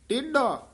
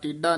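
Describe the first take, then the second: First: The middle consonant is a 'dh' sound. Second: The middle consonant is a plain 'd' sound. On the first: The speaker calls it right. "ਢੱਡਾ ਲਾ ਕੇ ਉਚਾਰਨ ਕਰਨਾ ਹੈ" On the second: The speaker calls it wrong. "ਡੱਡੇ ਨਾਲ ਨਹੀਂ ਬੋਲਣਾ ਟੇਢਾ ਨਹੀਂ ਕਹਿਣਾ"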